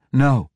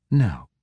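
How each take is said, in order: First: A loud, high, sharp "No" cut off fast; sharp scolding. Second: Calmer. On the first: Ivanel scolds the priestess with a sharp loud "No". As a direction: snap "No" to stop the priestess striking. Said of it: "Ivanel scolded the priestess". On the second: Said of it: "Ivanel said more calmly". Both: A narrator's reading.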